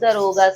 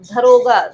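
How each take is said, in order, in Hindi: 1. पहला व्यंजन अल्पप्राण है, बिना साँस के। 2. पहला व्यंजन महाप्राण है, साँस के साथ। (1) "दरोगा सही है, दा लगेगा" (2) "धरोगा नहीं होगा"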